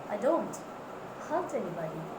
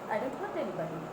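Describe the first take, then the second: First: The word don't is clearly stressed. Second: No word gets any special stress. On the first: The speaker calls it right. "give stress to don't" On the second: The speaker calls it wrong. "They are not getting stress anywhere"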